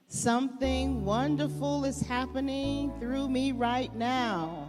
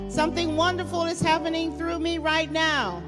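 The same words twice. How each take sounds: First: It is said at normal, softer volume. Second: It is said loudly.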